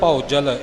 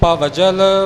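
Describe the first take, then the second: First: The first syllable is said as a diphthong 'au'. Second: The first syllable is said with a v sound. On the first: "ਜਿੱਥੇ ਊੜੇ ਨੂੰ ਔਂਕੜ ਹੋਵੇਗਾ ਉੱਥੇ ਭੌਜਲ ਪਾਠ ਹੋਵੇਗਾ" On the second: "ਭਵਜਲ ਭੱਬਾ ਵੱਵਾ ਭਾਵ ਭਵਜਲ ਪਾਠ"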